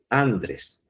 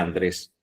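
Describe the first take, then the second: First: The stress is on the first syllable. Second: The stress is on the last syllable. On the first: This is what the misspelled sign says. The speaker calls it wrong. "dice Andrés" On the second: This is the name as it should be. The speaker calls it right. "No dice Andrés"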